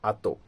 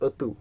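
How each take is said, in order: First: The first vowel is an open 'a' sound. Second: The first vowel is a rounded 'o' sound. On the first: The speaker calls it wrong. "যেমন আমি যদি বলি আহ, আতো" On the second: The speaker calls it right. "এই উচ্চারণটা কিন্তু গাহলাটুরু use হচ্ছে"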